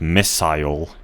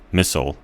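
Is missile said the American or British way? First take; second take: British; American. First: The second syllable rhymes with mile. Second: The second syllable is reduced and unstressed. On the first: "That's how I began pronouncing it" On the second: "I guess American pronunciation would have been misoru"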